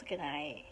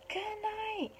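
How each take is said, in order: First: Low, soft elephant voice; elephant calling goodnight. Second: Gorilla calling goodnight. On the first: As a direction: drop deep and soft for the elephant. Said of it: "The elephant shouts". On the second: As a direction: call it out softly, way up high. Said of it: "The gorilla shouts". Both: A narrator's reading.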